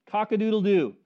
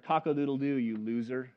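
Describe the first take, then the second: First: "Cock-a-doodle-doo" called out louder, a falling rooster crow. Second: A mock rooster crow sneering at Peter, kept low; taunting rooster. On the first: Retold or imitated. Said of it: "he heard". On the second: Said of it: "Peter woke up and he heard".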